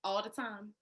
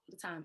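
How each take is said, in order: First: Said in the usual way. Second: Much softer and lower, trailing away; softly trailing the words off at the end; fading repeat. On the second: Real, not acted. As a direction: let the echo die off under your breath. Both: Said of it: "Ryan, when I tell you".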